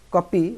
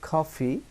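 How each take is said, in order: First: The p sound has no breath puff. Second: The p sound has a breath puff. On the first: The speaker calls it wrong. "কপি ভুল" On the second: The speaker calls it right. "প এবং ফ এই দুটোর মাঝখানে উচ্চারণ হয়"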